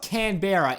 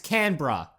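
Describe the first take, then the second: First: It is pronounced the American way. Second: It is pronounced the Australian way. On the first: The speaker calls it wrong. "if any American or anyone says Canberra" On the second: The speaker calls it right. "that's how you pronounce it"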